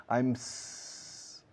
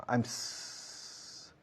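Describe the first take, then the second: Both takes have the same delivery.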